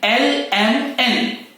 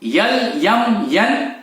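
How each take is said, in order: First: Each letter begins with a plain vowel. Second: Each letter begins with a 'y' sound. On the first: The speaker calls it right. "सही pronunciation क्या है एल एम एन" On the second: The speaker calls it wrong. "यल यम यन ये गलत है"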